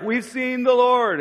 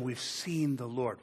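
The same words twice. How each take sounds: First: High, louder, slow proclaiming; excited announcement. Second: Said in the usual way. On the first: Retold or imitated. Disciples telling Thomas, high and triumphant.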